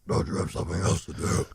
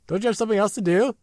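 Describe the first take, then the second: First: It is said in a deep Batman voice. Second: It is said in a higher voice.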